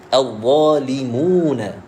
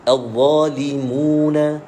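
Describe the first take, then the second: No difference in how they are said.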